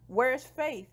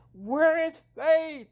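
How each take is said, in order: First: Higher-pitched urgent question; mildly urgent, acted-out demand. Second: Loud, high, drawn-out shout; exasperated woman in labor shouting; acted demanding yell. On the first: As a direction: ask urgently, a little raised. Labor begins, she asks urgently. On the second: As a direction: yell it slowly, stretching each word. Labor, she yells the question again.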